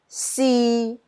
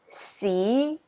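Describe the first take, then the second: First: It is said with Cantonese tone three. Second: It is said with Cantonese tone two.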